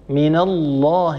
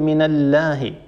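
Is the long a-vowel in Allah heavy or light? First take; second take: heavy; light. First: The long a-vowel is said heavy and full. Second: The long a-vowel is said light and thin. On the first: The speaker calls it right. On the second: The speaker calls it wrong.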